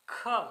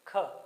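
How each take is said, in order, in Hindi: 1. यह व्यंजन सुनाई देने वाले घर्षण के साथ बोला जाता है। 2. यह व्यंजन एक सादे महाप्राण स्पर्श के रूप में बोला जाता है। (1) "हल्का सा घर्षण के साथ इसका उच्चारण होता है ख" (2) "नॉर्मली ख"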